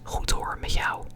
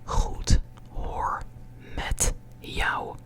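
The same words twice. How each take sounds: First: The words are said fast and run together. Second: Each word is said separately and clearly.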